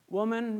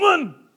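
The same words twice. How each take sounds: First: It is said in a gentle, caring tone. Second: It is said in a harsh, hostile tone.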